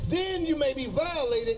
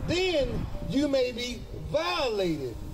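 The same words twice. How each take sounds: First: The phrase is spoken at a quicker pace. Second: The phrase is spoken slowly and deliberately.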